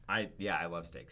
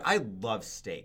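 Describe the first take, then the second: First: It is said flatly, without real enthusiasm. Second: It is said warmly, with real enthusiasm. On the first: The speaker does not really mean it. The speaker calls it wrong. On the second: The speaker truly means it. The speaker calls it right.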